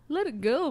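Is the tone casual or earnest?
casual. It is said in a relaxed, dismissive tone. Stop worrying about it and relax. "let it go, man. Chill out"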